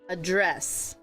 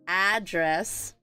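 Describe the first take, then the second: First: The first vowel is a weak schwa sound. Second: The first vowel is a full 'a' sound. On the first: It is the verb, to speak to or deal with. "if you were to change it over to verb, the pronunciation is address" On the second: It is the noun, a place where someone lives. "this A is pronounced as a as an apple. And this is the noun"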